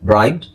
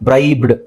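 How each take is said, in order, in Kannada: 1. ಕೊನೆಯ d ಚಿಕ್ಕದಾಗಿ, ಬಹುತೇಕ ಕೇಳಿಸದ ಹಾಗೆ ಹೇಳ್ತಾರೆ. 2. ಕೊನೆಯ d ಪೂರ್ತಿಯಾಗಿ, ಗಟ್ಟಿಯಾಗಿ ಹೇಳ್ತಾರೆ. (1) "ಡನ ನಾವು ಚಿಕ್ಕದ್ ಮಾಡಿ" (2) "ನೀವು ಡನ ನಾವು ಕನ್ನಡದಲ್ಲಿ ಹೇಳೋ ತರನೇ ಹೇಳಿದ್ರೆ"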